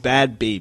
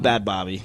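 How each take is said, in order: First: The second word's first vowel sounds like 'ay'. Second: The second word's first vowel sounds like 'ah'. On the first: The speaker calls it right. "That's how it's pronounced" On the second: The speaker calls it wrong. "It's not Bad Bobby, like Bobby Hill"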